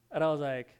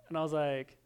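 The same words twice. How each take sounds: The two takes are said the same way.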